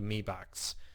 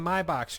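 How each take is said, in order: First: The first word rhymes with "see". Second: The first word rhymes with "eye". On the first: The speaker calls it right. "It's actually pronounced me box" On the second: The speaker calls it wrong. "I was saying my box"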